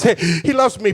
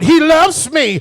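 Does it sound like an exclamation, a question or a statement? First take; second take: statement; exclamation. First: It falls firmly like a final statement. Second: It is said with excited exclamation.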